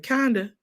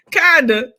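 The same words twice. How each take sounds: First: Said in the usual way. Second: Kinda said louder; loud repeat. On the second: Shown as a demonstration. Repeating her answer louder for the viewers.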